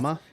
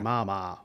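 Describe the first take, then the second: First: The A vowels are said plainly and casually. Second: The A vowels are strongly and deliberately enunciated. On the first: "They don't say" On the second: "they really enunciate the fucking A"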